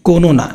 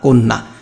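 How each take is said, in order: First: An 'o' vowel is inserted between 'kon' and 'na'. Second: 'Kon' runs straight into 'na' without a vowel. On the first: The speaker calls it wrong. "যদি হসন্তটা না দাও তাহলে উচ্চারণ হবে কি" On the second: The speaker calls it right. "প্রথমে কোন তারপরে না"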